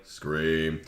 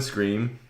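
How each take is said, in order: First: Low, soft, flat monotone announcer voice. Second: Said in the usual way. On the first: Retold or imitated. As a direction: say it in a dead monotone. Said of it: "in a really just monotone voice would be like". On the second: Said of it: "with the word".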